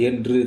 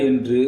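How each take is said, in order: The two takes are said the same way.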